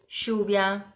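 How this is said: The double L sounds like an 'sh'. This is the typical Argentine way. "É muito característico esse som na Argentina"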